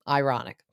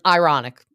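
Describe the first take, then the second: First: Said in the usual way. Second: "ironic" punched loud with a falling tune; emphatic ironic. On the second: Shown as a demonstration. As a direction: hit "ironic" hard and let it drop.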